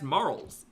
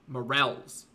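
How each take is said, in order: First: The word sounds just like 'morals'. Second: The word is said in a French-style way. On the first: The speaker calls it wrong. "I thought they were just pronounced morals" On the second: The speaker calls it right. "Like French"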